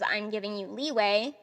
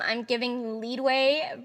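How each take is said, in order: First: The last word has no D sound inside. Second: The last word has a D sound inside. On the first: The speaker calls it right. "you say leeway" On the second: The speaker calls it wrong. "Leadway actually isn't even a word"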